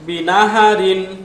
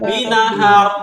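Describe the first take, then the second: First: The word ends with an added -in sound. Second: The word stops on a bare r sound. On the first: The reading continues without stopping. "Double কাসরা" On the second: The reader stops at this word. "সুকুন হয়ে যাবে"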